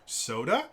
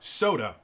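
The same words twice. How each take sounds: First: The pitch rises at the end. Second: The pitch falls at the end. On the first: It is a question. "The upward inflection at the end of a sentence is meant to uh, indicate a question" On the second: It is a statement or command. "that is understood to be a, a command"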